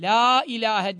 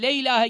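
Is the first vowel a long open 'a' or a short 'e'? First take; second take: long a; short e. First: The first vowel is a long, open 'a'. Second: The first vowel is a short, closed 'e'. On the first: The speaker calls it right. "la ağız açılarak ve uzatılarak" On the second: The speaker calls it wrong. "Bazıları le ilahe gibi yapıyorlar. O le ilahe çok tehlikelidir"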